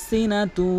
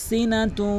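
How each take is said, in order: Both takes have the same delivery.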